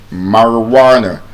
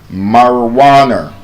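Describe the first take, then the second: No difference in how they are said.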